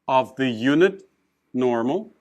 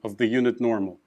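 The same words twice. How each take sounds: First: The voice rises at the end. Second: The voice falls at the end.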